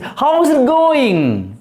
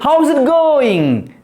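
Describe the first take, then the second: First: Each word is said separately and fully. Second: The words are run together as how's. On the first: The speaker calls it wrong. "Don't say how is it" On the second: The speaker calls it right. "Say in such a way, full of life"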